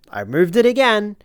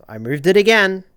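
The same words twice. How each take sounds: First: Higher, louder frustrated whine; exasperated whine. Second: Louder, frustrated groan at himself; annoyed at his own slip; exasperated. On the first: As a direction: whine it at yourself. Repeats, higher. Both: Real, not acted.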